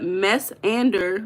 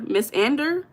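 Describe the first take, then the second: First: "Miss Ander" drawn out slowly, word by word; sounding out. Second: "Miss Ander" higher, rising at the end; questioning second try. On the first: Streamer working out a viewer's username, "Miss Ander" sounded out slowly. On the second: Streamer checking a viewer's username, "Miss Ander" said with rising tune. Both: Real, not acted.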